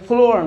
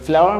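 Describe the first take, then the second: First: The first vowel is a plain 'oh' sound. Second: The first vowel is a gliding 'ow' sound. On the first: The speaker calls it wrong. "অনেক ফ্লোয়ার না" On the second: The speaker calls it right. "This is ফ্লাওয়ার"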